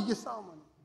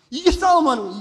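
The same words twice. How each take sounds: First: 이게 싸움하는 거예요 said much softer, rising on 이게; soft repeat. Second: 싸움하는 hit louder with a falling close; stressed 싸움하는. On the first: Preacher quietly repeats it to the congregation. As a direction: echo it quietly with 이게 lifted. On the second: Preacher stresses 싸움하는 to the congregation. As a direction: punch 싸움하는 and let it fall. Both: Shown as a demonstration.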